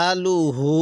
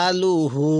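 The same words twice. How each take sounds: Both takes have the same delivery.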